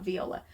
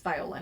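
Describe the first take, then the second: First: Viola with an ee sound, vee-OH-la; rejected Viola, vee-OH-la; pronounced wrong. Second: Viola with a long I, vy-OH-la; corrected Viola, vy-OH-la; pronounced right. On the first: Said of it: "I think it's Viola". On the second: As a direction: say Viola as vy-OH-la, first syllable like vie. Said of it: "not Viola". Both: Shown as a demonstration.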